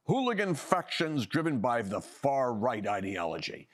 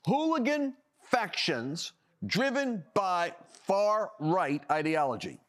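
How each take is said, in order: First: Said in the usual way. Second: "Hooligan factions driven by far-right ideology" slowed, every word leaned on; slow emphatic repeat. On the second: Shown as a demonstration. Host repeats the police label slowly, mocking it. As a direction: drag out "Hooligan" and let "ideology" fall. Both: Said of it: "Ready for this one?".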